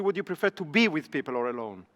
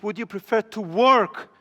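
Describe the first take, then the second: First: "be" lightly stressed, the rest softer and lower; weight shifts onto "be" instead of work. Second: Would you prefer to WORK, with work leaned on and slowed; stress on work. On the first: Teacher giving the wrong version of the question, stressing be. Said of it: "I didn't ask you". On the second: Teacher showing students the key word, stressing work. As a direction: lean on "work" and let it fall. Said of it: "listen to the way I asked it". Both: Shown as a demonstration.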